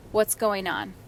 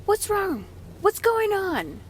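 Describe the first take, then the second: First: Calm check-in. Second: High-pitched, triggered questioning; retold raised voice. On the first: Retold or imitated. Mom checks in with her angry son, calm. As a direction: ask your child evenly, without alarm. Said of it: "now I'm talking to my son". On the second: Triggered mom calls to son after slammed door, raised voice. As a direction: call it out sharply, voice pitched right up. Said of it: "with a loud voice".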